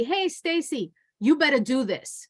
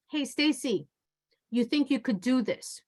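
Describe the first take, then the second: First: A sharp, demanding "Hey, Stacy", pitched up; bossy attitude. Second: Softer, gentle request; toned-down voice. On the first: Trainer demos a bossy tone to a coworker, pushy attitude. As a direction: order her around with attitude. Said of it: "I already have an attitude in my voice". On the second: Trainer demos asking a coworker kindly, soft and polite. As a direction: ask nicely, no edge at all. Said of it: "Now I tone down the voice". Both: Shown as a demonstration.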